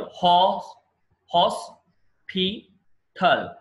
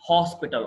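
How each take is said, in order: First: hospital drawn out slowly, each syllable apart; slow syllable demo. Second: Said in the usual way. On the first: Shown as a demonstration. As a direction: pull hospital apart into three slow beats. (నెమ్మదిగా అక్షరాలుగా విడదీసి) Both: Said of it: "ఇది చూడండి".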